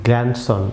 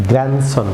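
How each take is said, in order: First: গ্র্যান্ডসন with the D sounded, "grand-son"; wrong pronunciation. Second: গ্র্যান্ডসন as "gran-son", no D; silent D. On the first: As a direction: pronounce the D in গ্র্যান্ডসন as a hard stop. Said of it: "সম্পূর্ণ ভুল pronunciation". (গ্র্যান্ডসন-এ ডি উচ্চারণ করে) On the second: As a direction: drop the D in গ্র্যান্ডসন, N straight into S. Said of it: "এটি হবে". (গ্র্যান্ডসন-এ ডি না বলে, "গ্র্যানসন") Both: Shown as a demonstration.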